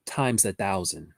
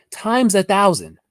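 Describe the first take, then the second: First: Said in the usual way. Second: "Times a thousand" punched high and loud; raised, forceful "Times a thousand"; emphatic repeat. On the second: Real, not acted. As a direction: hit "Times a thousand" hard, pitch jumping up. Emphatic repeat to stress the point.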